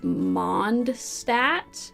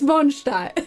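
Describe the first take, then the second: First: The name is said with English sounds. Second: The name is said with German sounds. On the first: "let me see if I can pronounce this the the way that you would without it sounding German" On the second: "but it's the German spelling"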